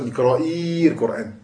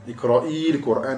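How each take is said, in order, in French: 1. La voyelle qui précède l'article est maintenue longue. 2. La voyelle qui précède l'article reste brève.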